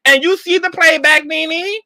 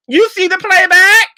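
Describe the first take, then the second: First: Higher, pointed question to Nene; incredulous question. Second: High, loud you see the playback?; incredulous shout. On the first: Vlogger quizzing Nene on playback, incredulous. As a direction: ask it like you can't believe it. Asks Nene about her footage. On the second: Vlogger demanding Nene watch herself, loud incredulous. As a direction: yell it in full disbelief. Repeats the question, louder. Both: Real, not acted.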